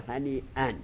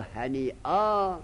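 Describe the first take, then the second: First: The word ends with an -an sound. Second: The word ends with a long a sound. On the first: The speaker calls it wrong. "نگو هنی ان" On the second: The speaker calls it right. "یا بگو هنی آ با الف که تنوین قلب الف کنی"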